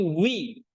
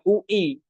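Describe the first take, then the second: First: The two vowels glide together into one sound. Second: The two vowels are said as separate sounds. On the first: The speaker calls it right. "Tapi wi" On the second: The speaker calls it wrong. "bukan U I"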